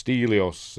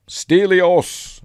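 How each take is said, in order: First: Said in the usual way. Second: High, loud drawn-out call; imitated battle shout, higher and louder; retold shout. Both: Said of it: "Then he shouts".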